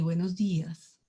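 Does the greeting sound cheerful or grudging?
grudging. It is said quietly and without enthusiasm. The speaker is not really glad to greet anyone. The speaker calls it wrong. "en muy bajito voz también estar diciendo"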